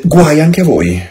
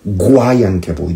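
First: Louder, firm denunciation; raised warning voice; stern warning. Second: Said in the usual way. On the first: Retold or imitated. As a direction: hurl the woe at them like a judgment. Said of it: "Gesù rispose". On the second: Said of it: "reads the verse again".

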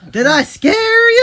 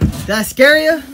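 First: High, slow, taunting squeal; high teasing squeal. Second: Teasing. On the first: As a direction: stretch it out, mocking and high. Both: Acted.

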